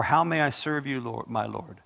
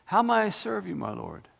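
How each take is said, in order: First: Said in the usual way. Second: Lifted prayer. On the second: Shown as a demonstration. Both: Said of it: "write it down and say".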